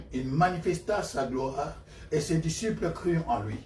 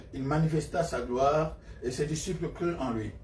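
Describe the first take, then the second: No difference in how they are said.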